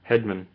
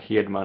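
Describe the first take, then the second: First: The name is said the English way. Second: The name is said the Swedish way.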